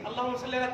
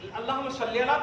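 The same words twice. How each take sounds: First: The phrase is recited quickly and rushed. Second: The phrase is recited slowly and carefully. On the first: The recitation is done carelessly, just to finish. The speaker calls it wrong. "एक दाना के लिए अल्लाहुम्मा सल्ली अला चार दाने गिर जाते हैं" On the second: The recitation is done with care. The speaker calls it right. "बड़ा अच्छा लगता है सुनने में"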